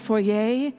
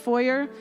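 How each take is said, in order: First: It is said with a French pronunciation. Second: It is said with an English pronunciation.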